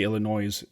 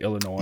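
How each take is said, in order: First: The final S sound is pronounced. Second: The final S sound is silent. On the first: The speaker calls it wrong. "I don't say Illinois in conversation" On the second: The speaker calls it right. "I say Illinois because that's how it's pronounced"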